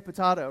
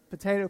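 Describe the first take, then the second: First: "potato" said po-TAH-to; "potato", middle syllable like "tah"; alternative pronunciation. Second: "potato" said po-TAY-to; "potato", middle syllable rhyming with day; one of two pronunciations. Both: Shown as a demonstration. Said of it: "it's potato, potato, right?".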